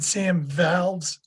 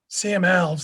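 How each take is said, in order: First: The surname begins with a V sound. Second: The surname begins with a vowel sound. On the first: The speaker calls it wrong. "with a V at the beginning" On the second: The speaker calls it right. "It doesn't have a V"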